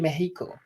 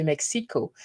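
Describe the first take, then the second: First: "Mexico" as Meh-hee-ko, x as h; Spanish pronunciation. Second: "Mexico" as Mek-see-ko, x as ks; English pronunciation. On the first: Correcting for the viewers, Spanish pronunciation. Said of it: "I said Mexico". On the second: Showing viewers what was not said, English pronunciation. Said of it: "I didn't say Mexico". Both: Shown as a demonstration.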